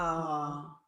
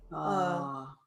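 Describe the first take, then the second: First: It is said with the neck tense. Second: It is said with a lower, relaxed voice.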